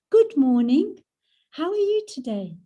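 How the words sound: The greeting sounds warm and heartfelt.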